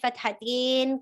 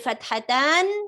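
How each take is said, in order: First: The word ends with an 'in' sound. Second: The word ends with an 'an' sound. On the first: This is an accent, not pure Arabic. The speaker calls it wrong. "in, in, in sound. There's no in sound in pure Arabic" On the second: This is the original form. The speaker calls it right. "is the original uh, form of the word"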